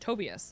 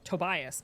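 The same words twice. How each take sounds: First: The name is pronounced the German way. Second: The name is pronounced the English way. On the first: This is how the person himself says his name. The speaker calls it right. "his name was Tobias" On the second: This is how everyone else said the name. The speaker calls it wrong. "not Tobias"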